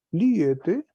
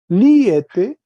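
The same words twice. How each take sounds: First: Liete said again at normal level, rising; softer repeat. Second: Liete said loud and higher, rising at the end; loud model. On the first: Teacher repeats the form softly for students. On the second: Teacher first models the form, loud and rising. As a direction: belt out Liete for the class. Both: Shown as a demonstration. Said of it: "Uno P, dos P".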